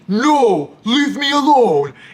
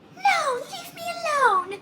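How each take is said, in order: First: It is said in a put-on man's voice. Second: It is said in a put-on woman's voice. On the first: A male character is speaking. "they'll like adapt their voices" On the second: A female character is speaking. "he'll read it in like a Margaret voice"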